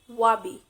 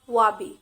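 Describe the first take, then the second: Both takes have the same delivery.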